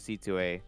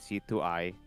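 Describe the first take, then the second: First: The name ends with an 'ah' sound. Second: The name ends with an 'eye' sound. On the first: The speaker calls it right. "it's actually C two A" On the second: The speaker calls it wrong. "people would probably say C two I"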